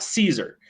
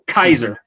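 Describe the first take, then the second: First: The word begins with a soft S sound. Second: The word begins with a hard K sound. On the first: The speaker calls it wrong. "not Caesar. You don't pronounce it with an S" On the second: The speaker calls it right. "That's pronounced K because the letter C in Latin is just the K sound"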